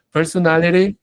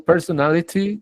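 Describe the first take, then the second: First: "personality" with an American flapped t; American "personality", ending tapped as "-lery"; more North American. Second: "personality" with a crisp British t; British-style "personality", t fully sounded, pitched higher; more British. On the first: Teacher contrasts two accents for students, more North American. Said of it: "estoy sonando más norteamericano". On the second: Teacher contrasts two accents for students, more British. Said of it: "estoy hablando más británico". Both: Shown as a demonstration.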